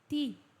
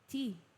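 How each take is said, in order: First: The T is said like 'tee'. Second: The same.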